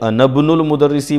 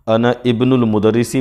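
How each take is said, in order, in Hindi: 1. पहले दो शब्द आपस में जुड़कर बोले जाते हैं। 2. पहले दो शब्द अलग-अलग बोले जाते हैं। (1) "दोनों सही है" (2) "मैं अलग अलग करके बोलता हूँ"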